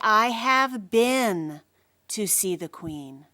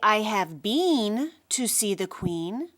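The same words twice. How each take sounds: First: 'Been' has a short vowel rhyming with 'bin'. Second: 'Been' has a long vowel rhyming with 'queen'. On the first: The speaker calls it right. "We say" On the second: The speaker calls it wrong. "We don't say"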